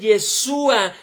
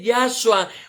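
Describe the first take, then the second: First: The first vowel sounds like 'e'. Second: The first vowel sounds like 'ah'. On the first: The speaker calls it right. "se dice Yeshua" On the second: The speaker calls it wrong. "no se dice Yahshua"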